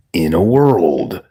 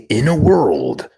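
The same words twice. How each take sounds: First: Slow, low movie trailer read; deep trailer voice. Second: Slow movie trailer narrator. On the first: Showing chat how to say it, trailer voice. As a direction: boom it like a film trailer announcer. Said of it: "Like that". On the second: Streamer told to say it, trailer voice. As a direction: intone it like a film trailer. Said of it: "Hero was told to say". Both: Shown as a demonstration.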